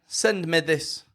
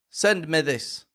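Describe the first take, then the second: Both takes have the same delivery.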